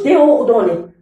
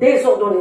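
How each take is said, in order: First: The prefix runs into the vowel without a z sound. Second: A z sound links the prefix to the vowel. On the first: The speaker calls it wrong. "ما نقولش" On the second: The speaker calls it right. "نقول ديزوردوني نزيد الاس"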